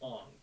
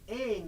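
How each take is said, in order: First: The name is said with a non-American pronunciation. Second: The name is said with an American pronunciation. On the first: "they would say Ong" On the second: "instead of Aang"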